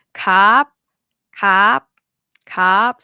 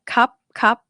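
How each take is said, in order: First: "Cup" loud, with a long vowel before the stop; stretched vowel. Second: "Cup" short and lifted, lips closing on the end; quick stopped "cup" with high pitch; short dead syllable. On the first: Teacher has students try to stretch it, loud lengthened vowel. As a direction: stretch "cup" while lifting the pitch. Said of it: "try to stretch a bit". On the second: Teacher tells students to add B at end, short stopped syllable. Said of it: "B at the end". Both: Shown as a demonstration.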